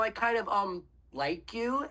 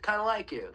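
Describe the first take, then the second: First: It is said hesitantly, with fillers. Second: It is said confidently and directly.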